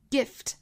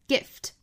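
First: The vowel is short. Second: The vowel is short.

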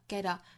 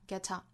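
First: The t is a quick flap into the next word. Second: The t is released with a burst of air. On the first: "美音同样是弹出来 get a" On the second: "英音呢是更倾向于会爆破出来这个气流哈"

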